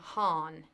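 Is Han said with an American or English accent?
American. It is said the American way.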